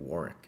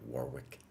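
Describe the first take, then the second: First: The second W is silent. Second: The second W is pronounced. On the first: The speaker calls it right. "Don't say the second W in Warwick. It's going to be" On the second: The speaker calls it wrong.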